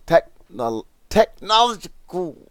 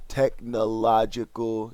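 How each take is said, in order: First: Technological, squeaked out much higher; technological, high-pitched and louder; exasperated squeak. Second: Said in the usual way. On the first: Real, not acted. Frustrated at stumbling on technological.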